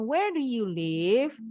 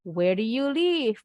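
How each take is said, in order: First: WHERE DO YOU LIVE with a rising end; wrong rising intonation. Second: WHERE DO YOU LIVE with a falling end; falling question intonation. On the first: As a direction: lift "live" upward as a mistaken example. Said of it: "Bukan where do you live?". (intonasi naik di akhir "where do you live", contoh salah) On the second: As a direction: bring the pitch down on "live". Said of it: "Harus intonasinya turun". (intonasi turun di akhir "where do you live") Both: Shown as a demonstration.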